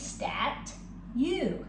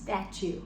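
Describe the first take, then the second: First: It is said slowly in two separate parts. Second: It is said quickly with the sounds blended. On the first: "It's really stat you" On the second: "when we say it fast"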